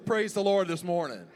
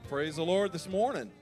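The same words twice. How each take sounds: First: It is said with more energy and gusto. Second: It is said with ordinary, low energy.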